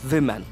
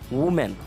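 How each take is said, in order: First: The first syllable sounds like 'wih'. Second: The first syllable sounds like 'woo'. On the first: The speaker calls it right. "the spelling is like W I H M E N" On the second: The speaker calls it wrong. "mostly we pronounce it as woman"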